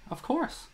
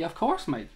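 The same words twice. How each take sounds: First: Course jumps much higher, rising like a teasing question; mock unsure of course. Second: Said in the usual way. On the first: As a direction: pretend not to remember, tune climbing high. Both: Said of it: "No, I'm only messing".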